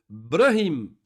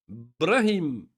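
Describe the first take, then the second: No difference in how they are said.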